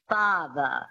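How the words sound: It is said with a transatlantic accent.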